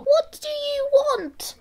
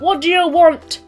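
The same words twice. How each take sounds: First: It is said in a small, little voice. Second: It is said in a normal voice.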